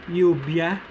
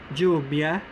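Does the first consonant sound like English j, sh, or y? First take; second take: y; j. First: The consonant sounds like English y. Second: The consonant sounds like English j. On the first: "The Y-like or the letter I-like sound" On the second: "The J-like sound"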